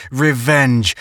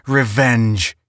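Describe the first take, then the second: No difference in how they are said.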